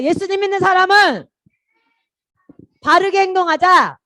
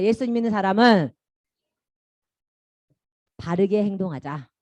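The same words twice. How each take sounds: First: Loud call to repeat. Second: Said in the usual way. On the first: Shown as a demonstration. Children's pastor leading kids in a loud repeat-after-me. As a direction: belt it out so the whole room repeats. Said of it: "자, 따라하자". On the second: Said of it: "따라한다".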